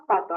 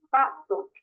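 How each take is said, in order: First: Said in the usual way. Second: "pato" said slowly with stress on "pa"; "pato" in slow syllables, "pa" carrying the weight; stress on first syllable. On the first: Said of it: "lleva la mayor fuerza de voz". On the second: Shown as a demonstration. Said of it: "lleva la mayor fuerza de voz en la pa".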